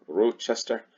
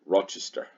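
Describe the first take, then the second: First: "Rochester" with a long O, ROH-chester; alternate pronunciation. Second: Said in the usual way. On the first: Shown as a demonstration. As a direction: try saying "Rochester" as ROH-chester, pitched higher. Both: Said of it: "how do you say that name?".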